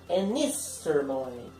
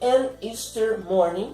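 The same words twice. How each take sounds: First: The first two words run together as one. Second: The first two words are said separately.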